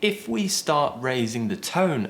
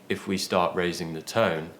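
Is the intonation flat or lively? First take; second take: lively; flat. First: The pitch rises and varies more throughout. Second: The pitch stays flat and level throughout. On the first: It sounds approachable and friendly. The speaker calls it right. "I'm saying if we start raising the tone a bit more" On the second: It sounds boring. The speaker calls it wrong. "I'm not just saying if we start raising the tone"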